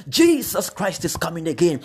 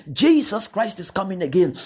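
The two takes are said the same way.

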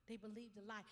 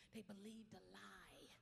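First: Said in the usual way. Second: Hushed, slow whisper; whispered first take. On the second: Shown as a demonstration. Pastor telling of her family's betrayal, whispered. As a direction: breathe it low and slow.

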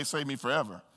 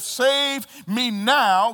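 First: Quiet plea. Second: Drawn-out, slow demanding plea; urgent plea. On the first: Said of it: "The other one would say". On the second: One thief demanding rescue, slow urgent plea. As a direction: stretch out now, demanding. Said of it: "One said". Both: Acted.

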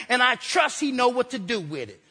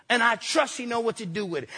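The two takes are said the same way.

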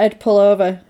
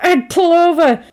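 First: Said in the usual way. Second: High, raised-voice demand; imitating an exasperated shouted order; insistent repeat. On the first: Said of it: "then he, he starts crying". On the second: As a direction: call out urgently to someone ignoring you. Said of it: "ignoring him, and he's like".

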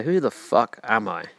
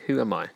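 First: Drawn out slowly, each word weighed; slow it down and lean on it; slow, emphatic. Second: Said in the usual way. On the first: Shown as a demonstration. Podcaster to listener asking themselves, slow and emphatic. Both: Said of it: "Then you say".

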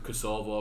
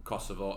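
First: "Kosovo" stressed on the middle, "kuh-SOH-voh"; mispronunciation. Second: "Kosovo" stressed on the start, "KOSS-uh-voh"; corrected pronunciation. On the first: Talking football politics with mates, "Kosovo" mistakenly stressed on the second syllable. Mispronounced, then corrected by co-host. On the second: Repeating the word after a mate corrects it, "Kosovo" stressed on the first syllable. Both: Real, not acted.

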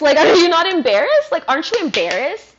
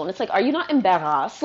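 First: Higher and louder, hammering the question; exasperated outburst. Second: Said in the usual way. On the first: Real, not acted. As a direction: throw the question at them, fed up. Repeats the jab, louder.

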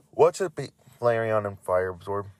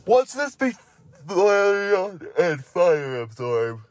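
First: Said in the usual way. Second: High, drawn-out mock question; put-on silly voice. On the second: Reader hamming up the next Pokemon's name, silly high voice. Silly first take, then repeated normally.

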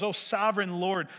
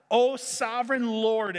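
First: Said in the usual way. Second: Louder, higher, frustrated cry upward; yelling at God. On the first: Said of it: "calls out to God". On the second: Acted. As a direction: call out in exasperation to God. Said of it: "He is yelling at God".

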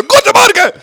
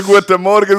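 First: Very high, loud shouted greeting; shouting. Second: Said in the usual way. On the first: Pretend. Host shows friends life with only shouting, shouted greeting. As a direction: yell it at the top of your voice. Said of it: "Du kannst nur noch schreien". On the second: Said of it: "du sagst so".

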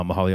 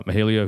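First: "Mahalia" with middle vowel as "hah"; corrected pronunciation. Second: "Mahalia" with middle vowel as "hay"; mistaken pronunciation. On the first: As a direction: say "Mahalia" like muh-HAH-lee-uh. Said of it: "I'm sorry". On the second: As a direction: say "Mahalia" like muh-HAY-lee-uh. Misreads name, then corrects it. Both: Real, not acted.

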